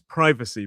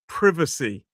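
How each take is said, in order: First: It is said with an American pronunciation. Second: It is said with a British pronunciation. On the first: "In American English, it's privacy" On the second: "technically in British English, we should pronounce the word as privacy"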